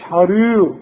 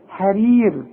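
First: The r sound is heavy and thick. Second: The r sound is light and thin. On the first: The speaker calls it wrong. "ما تقوليش حرير" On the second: The speaker calls it right. "كل راء مكسورة مرققة دائما"

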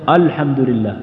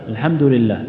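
First: The opening hamza is heavy and emphatic. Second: The opening hamza is weak or barely heard. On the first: "أو يبدأ بها مفخمة" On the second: "يبدأ باللام أو يبدأ بالهمزة لكن ضعيفة"

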